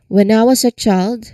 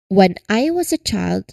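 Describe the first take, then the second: First: The words shrink and blend together quickly. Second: Each word is pronounced separately and clearly. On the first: "we do not pronounce each word separately" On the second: "instead of saying that"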